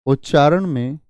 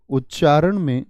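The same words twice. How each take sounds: The two takes are said the same way.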